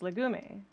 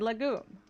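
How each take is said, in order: First: The final vowel sound is clearly pronounced. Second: The final vowel sound is left silent. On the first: The speaker calls it right. "it's Romanian, therefore it's pronounced legume" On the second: The speaker calls it wrong. "But they said legume"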